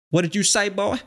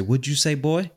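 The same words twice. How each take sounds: First: Very high-pitched, hammed-up Southern accent; bad Southern accent. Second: Higher-pitched mock Southern challenge. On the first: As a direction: push a fake Southern challenge way up high. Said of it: "I can't do a Southern accent very good". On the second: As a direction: imitate a Southerner confronting someone, pitched up. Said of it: "like, a stereotypical Southern accent".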